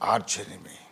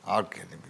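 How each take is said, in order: First: The word arch ends with a ch sound. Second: The word arch ends with a k sound. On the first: "ఆర్చ్ enemy అనుకోండి పోని" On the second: "నేను ఆర్క్ enemy అంటాను"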